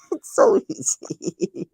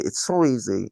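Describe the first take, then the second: First: A very high, slow wail that breaks into laughter; half-laughing, pretending to sob over it; mock crying laugh. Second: Said in the usual way. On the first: Mock sobbing to friends about shamrocks, laughing. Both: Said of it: "it makes me cry".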